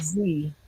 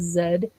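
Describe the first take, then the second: First: The letter is said the American way. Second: The letter is said the British way. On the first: "instead of Z" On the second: "in England as well, they pronounce the letter Z as Z"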